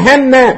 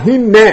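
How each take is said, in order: First: HANNA with an A vowel after the h; fatha on haa. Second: HINNA with an I vowel after the h; kasra on haa. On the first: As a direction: say "hanna", opening the first syllable to A. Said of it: "bi fatxi lhaa". (hanna, haa-da oo fatxo leh) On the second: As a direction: say "hinna", first syllable with a short I. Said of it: "wa kasriha". (hinna, haa-da oo kasro leh) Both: Shown as a demonstration.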